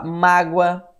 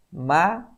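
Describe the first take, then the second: First: Said in the usual way. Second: "mágoa" broken in two, má, pause, goa; separado em sílabas. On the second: Shown as a demonstration. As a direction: say "mágoa" syllable by syllable, with a clear gap. ("mágoa" dividido em má e goa, com pausa) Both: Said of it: "separação silábica".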